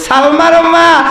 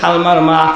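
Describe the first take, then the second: First: The name is called with more force. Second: The name is called quietly and timidly. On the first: The caller gathers courage to call. "একটু পাওয়ার দিয়ে বলতেছে" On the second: The caller is afraid to call out. "ডাকার জন্য সাহস পাইতেছে না, মানে এমনভাবে বলতে"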